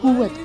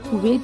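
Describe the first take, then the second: First: The word ends with a doubled 'wwat' sound. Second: The word ends with a 'wait' sound. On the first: The speaker calls it right. "Urdu में इसको हम बोलते हैं कुव्वत" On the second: The speaker calls it wrong. "कुवैत नहीं"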